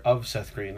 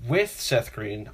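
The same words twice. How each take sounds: First: "of" picked out against the other words; stress on of. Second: "with" set apart, slow and weighted; stress on with. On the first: Friend confessing his photo mistake, stress on "of". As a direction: punch the little word "of". Contrasts of versus with the celebrity. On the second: Friend explaining his photo regret, stress on "with". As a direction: lean slowly on "with". Contrasts with versus of the celebrity. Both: Real, not acted.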